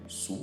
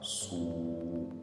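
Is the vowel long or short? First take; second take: short; long. First: The vowel is short and not drawn out. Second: The vowel is long and drawn out. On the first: "Ça ne sera plus sous" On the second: "le son sera tiré"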